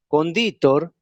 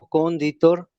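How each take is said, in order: First: The second syllable is long. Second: The first syllable is long. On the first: It means the one who seasons food. "la segunda sílaba es larga" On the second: It means the one who founds. "es necesario atender a la duración larga de la primera sílaba"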